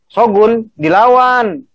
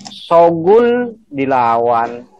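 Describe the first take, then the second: First: SHOGUN and DILAWAN both pitched high, slow; kalimat perintah. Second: Very slow statement, dilawan settling down; kalimat berita. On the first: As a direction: command it, high on DILAWAN then falling. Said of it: "Perintah apa?". (nada perintah, DILAWAN tinggi) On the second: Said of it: "Kalimat berita". (nada kalimat berita, SHOGUN dipanjangkan) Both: Shown as a demonstration.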